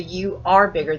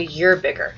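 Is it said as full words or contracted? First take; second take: full words; contracted. First: You and are are said as separate words. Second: You and are are merged into you're. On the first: The speaker calls it wrong. "people don't talk like that" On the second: The speaker calls it right. "they'll shorten it"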